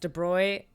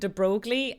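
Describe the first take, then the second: First: The name is said with a French-style pronunciation. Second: The name is said with an English-style pronunciation. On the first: The speaker calls it right. "we realized it's De Broglie" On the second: The speaker calls it wrong. "I made four videos pronouncing him De Broglie"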